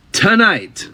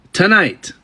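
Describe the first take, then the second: First: Tonight drawn out, higher and hit hard; stressed repeat. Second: Said in the usual way. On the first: Shown as a demonstration. To listeners, repeating Tonight with stressed disbelief. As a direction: lean on the word Tonight, stretching the T.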